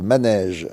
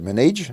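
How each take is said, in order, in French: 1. Le mot est prononcé avec un accent français. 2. Le mot est prononcé avec un accent anglais. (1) "c'est la traduction de manège" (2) "avec l'accent anglais, ça fait manage"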